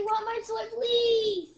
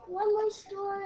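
First: 부탁하는 말투; pleading. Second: Said in the usual way. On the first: Shown as a demonstration. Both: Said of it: "Or you can say".

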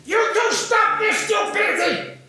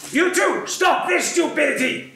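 First: Put-on high, loud shouted command from a five-year-old; small boy shouting at his fighting parents; child's shout. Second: High, loud stern teacher scolding; teacher scolding two arguing kids; imitating scolding teacher. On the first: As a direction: shout it to stop the fight, big and brave. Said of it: "this is what I say". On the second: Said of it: "the preschool teacher comes up to us and she says".

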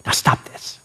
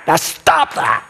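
First: Softer whispered firm nudge at the end; a gentle but firm push, almost breathed; firm little oomph. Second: Shouted order to quit; yelled command. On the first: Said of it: "put a little oomph in it right at the end". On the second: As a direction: snap it out as a yell. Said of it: "You don't yell at her and just say". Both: Shown as a demonstration.

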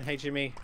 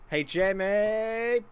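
First: Said in the usual way. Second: High call, last word stretched long; teasing call. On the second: Real, not acted. Gamer pestering rival Jimmy, high drawn-out call. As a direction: draw the name out, pitched up.

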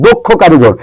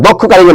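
First: দক্ষ in "দক্ষ কারিগর" as "dokkho"; closed "o" in দক্ষ, then কারিগর; correct pronunciation demo. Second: দক্ষ in "দক্ষ কারিগর" as "dawkkho"; wrong pronunciation demo. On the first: Teacher correcting a common phrase, দক্ষ with closed "o". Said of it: "এটা হচ্ছে দক্ষ কারিগর". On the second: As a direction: open "aw" in দক্ষ, then কারিগর. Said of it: "দক্ষ কারিগর না". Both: Shown as a demonstration.

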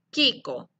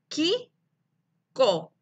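First: Said in the usual way. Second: "Ki-ko" in two beats, long pause between, first rising, second falling; split into syllables. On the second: Shown as a demonstration. Teacher separates the word for pupils, "Ki-ko" syllable by syllable. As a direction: break "Ki-ko" apart after "Ki". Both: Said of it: "separar la palabra Kiko en sílabas".

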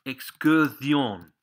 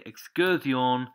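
First: Excursión stretched out, louder; excursión drawn out with a strong ending; slow word model. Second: Said in the usual way. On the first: Shown as a demonstration. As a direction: say excursión slowly and firmly for learners. Teacher models the word, then repeats. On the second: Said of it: "like that".

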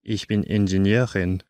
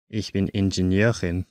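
No difference in how they are said.

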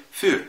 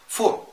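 First: فور said with a rounded German ü; فور بـ ü مضمومة صح; correct für. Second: فور said with a plain u, the wrong way; فور بـ u عادية غلط; wrong für. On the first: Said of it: "النطق الصحيح هو إيه؟". (نطق فور الصحيح بالأوملاوت) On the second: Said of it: "فور ده غلط". (نطق فور الغلط من غير أوملاوت) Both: Shown as a demonstration.

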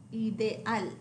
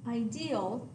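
First: Ideal as ee-deh-AL, falling; Spanish ideal, stress on final AL; Spanish pronunciation. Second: Ideal as eye-DEE-ul; English ideal, opening on an eye sound; English pronunciation. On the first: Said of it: "stress on the last syllable". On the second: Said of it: "The English word". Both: Shown as a demonstration.

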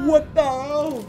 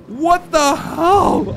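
First: Said in the usual way. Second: What the hell? stretched out slowly, pitched high; slow, stunned What the hell?; drawn-out disbelief. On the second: Real, not acted. Stunned player drags out What the hell? slowly in disbelief.

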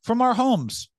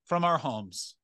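First: High, loud punch on our homes; emphatic. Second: Said in the usual way. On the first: Shown as a demonstration. Comic stressing piracy from home, high and loud. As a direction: hammer the point home.

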